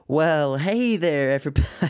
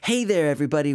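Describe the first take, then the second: First: It is said in a Texas prospector voice. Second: It is said in his own normal voice.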